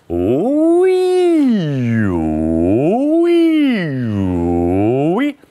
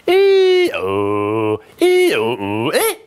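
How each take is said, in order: First: Sweeping falling and rising ooh-wee; exaggerated cartoon intonation. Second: Cracking falling sound; voice breaking. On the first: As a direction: slide down and up like a cartoon. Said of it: "Relax your throat totally and go". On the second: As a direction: let the falling note break. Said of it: "there are some breaks in your voice, like this". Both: Shown as a demonstration.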